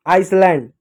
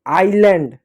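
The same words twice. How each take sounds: First: आइसलैंड with the s sounded; "ais-land", hiss kept in आइसलैंड; wrong pronunciation. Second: आइलैंड with silent s; correct pronunciation. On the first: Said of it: "गलत होता है". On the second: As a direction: glide from ai straight to l in आइलैंड. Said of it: "silent होता है". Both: Shown as a demonstration.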